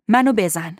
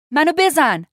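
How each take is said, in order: First: Said in the usual way. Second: High, loud angry order; furious raised-voice demand; angry command. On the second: A narrator's reading. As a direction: shout the command in exasperation. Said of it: "با عصبانیت گفت".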